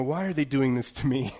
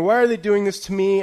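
First: Said in the usual way. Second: Louder, higher mock-dramatic whine; dramatic complaint. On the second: Retelling his tech outrage, mock-dramatic whine. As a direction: ham up the outrage at the update. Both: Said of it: "it's a dramatic moment".

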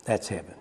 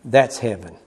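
First: Much lower and softer "That's heaven"; near-whispered echo. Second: Low, soft "that's heaven"; quiet declaration. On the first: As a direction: let it die away to almost nothing. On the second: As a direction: settle it down gently. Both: Real, not acted. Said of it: "repeated softer".

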